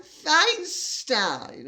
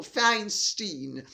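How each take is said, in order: First: Feinstein said FINE-stine, both halves rhyming. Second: Feinstein said FINE-steen, second half like "seen"; Feinstein ending in "steen". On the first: Commentator unsure of the senator's name, Feinstein as FINE-stine. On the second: Commentator offering the other version, Feinstein as FINE-steen. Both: Shown as a demonstration. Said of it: "however the name is pronounced".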